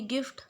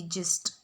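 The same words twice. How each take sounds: First: "गिफ्ट" with the G said as ग, a hard g; hard G in gift. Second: "जिस्ट" with the G said as ज, jist; soft G in gist. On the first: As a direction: start "गिफ्ट" with a hard ग sound, not ज. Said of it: "जी को ग pronounce करते हैं". ("गिफ्ट" में जी को ग बोलो) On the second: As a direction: start "जिस्ट" with a soft ज sound, never ग. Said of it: "जी को हमने ज प्रोनाउंस किया है". ("जिस्ट" में जी को ज बोलो) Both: Shown as a demonstration.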